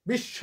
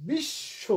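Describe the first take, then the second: First: বিশ্ব as "bish-shaw"; open final vowel. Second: বিশ্ব slowly as "bish-sho"; closed final o. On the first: Teacher imitating the common mistake, open final vowel. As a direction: end বিশ্ব on open অ in place of o. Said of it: "অ করে ফেলি". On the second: Teacher giving the correct word, ending in a clear o. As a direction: round the last vowel of বিশ্ব to a full o. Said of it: "আসলে বিশ্ব". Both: Shown as a demonstration.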